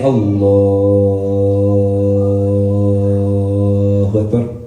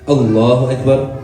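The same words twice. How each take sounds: First: It is said slowly and drawn out. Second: It is said quickly and briefly.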